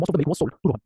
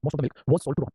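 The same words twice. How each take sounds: First: Slowed-down teaching read; slow model sentence. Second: Said in the usual way. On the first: Shown as a demonstration. Teacher slowly models the English sentence. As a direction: lay out each word slowly. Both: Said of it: "सपोज सर, हमने बोला".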